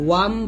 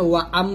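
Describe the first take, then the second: First: The sounds are joined into one syllable. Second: The sounds are split into two syllables. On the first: The speaker calls it right. "ওয়াম বলতে হবে" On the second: The speaker calls it wrong. "আমরা এখানে ওয়া আম বলি তো এরকম না"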